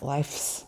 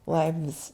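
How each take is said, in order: First: The word is said with an f sound. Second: The word is said with a v sound. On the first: The speaker calls it wrong. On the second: The speaker calls it right. "We change that F to a V when it's plural"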